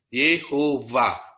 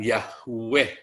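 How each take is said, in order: First: The name is said with 'e' and ending 'va'. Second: The name is said with 'a' and ending 'weh'. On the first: The speaker calls it right. "itu yang benar cara membacanya" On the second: The speaker calls it wrong. "bukan Yahweh"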